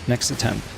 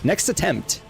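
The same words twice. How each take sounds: First: The final T of attempt is dropped. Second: The final T of attempt is clearly pronounced. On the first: "I don't know why I'm saying it like that" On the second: "With a T at the end"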